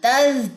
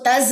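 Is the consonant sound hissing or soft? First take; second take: soft; hissing. First: The consonant is said softly without a whistle. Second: The consonant is said with a hissing whistle. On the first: The speaker calls it right. "जो है वो सीटी नहीं है" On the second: The speaker calls it wrong. "इसको तज नहीं पढ़ना"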